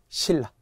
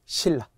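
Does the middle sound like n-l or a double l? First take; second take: double l; double l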